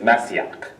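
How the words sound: It is pronounced the Hebrew way. "the word to anoint someone in Hebrew is"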